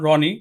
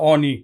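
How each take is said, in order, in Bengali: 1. নামটি একটি R ধ্বনি দিয়ে শুরু হয়। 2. নামটি R ধ্বনি ছাড়া শুরু হয়। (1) "তার ছেলের নাম রনি" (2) "সে বলে অনি ... রর উচ্চারণটা পায় না"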